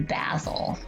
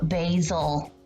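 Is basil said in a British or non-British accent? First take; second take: British; non-British. First: Basil is said in a British accent. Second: Basil is said in the speaker's usual non-British accent.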